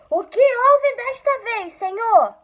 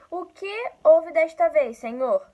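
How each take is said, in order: First: It is shouted loudly. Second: It is read at a normal volume.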